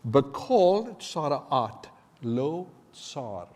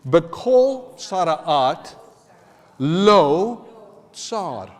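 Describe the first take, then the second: First: It is said at normal speed. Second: It is said slowly.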